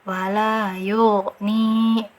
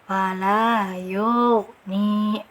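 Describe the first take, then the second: The two takes are said the same way.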